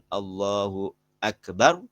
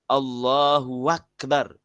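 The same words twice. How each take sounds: First: Akbar begins with a glottal stop. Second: Akbar begins with a w sound. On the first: The speaker calls it right. "Seharusnya dia mengatakan" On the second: The speaker calls it wrong. "mengganti hamzahnya itu dengan waw"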